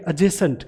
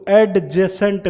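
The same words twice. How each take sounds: First: एडजेसेंट with silent d, said "ejesent"; correct adjacent. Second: एडजेसेंट with a hard d before the j; teacher showing the wrong एडजेसेंट; wrong d sounded. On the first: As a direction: glide एडजेसेंट straight from e into j. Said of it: "इसको एडजेसेंट नहीं बोलेंगे". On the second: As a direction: stress the d in एडजेसेंट as the mistake. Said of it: "नहीं बोलेंगे". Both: Shown as a demonstration.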